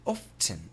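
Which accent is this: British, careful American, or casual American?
British. Imitated British accent. "the British pronunciation would be something like"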